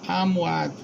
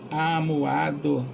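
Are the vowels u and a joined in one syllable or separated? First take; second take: joined; separated. First: The vowels u and a glide into one syllable. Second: The vowels u and a form two syllables. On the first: The speaker calls it wrong. "pronunciar amuado" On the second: The speaker calls it right. "em vez de amuado, que deve ser separado"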